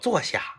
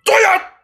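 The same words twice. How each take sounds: First: It is said in a gentle, soft tone. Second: It is said in a stern, harsh tone.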